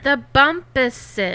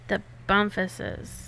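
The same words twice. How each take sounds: First: The name has a clean p with no f. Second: The name sounds like it has an f sound. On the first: The speaker calls it right. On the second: The speaker calls it wrong.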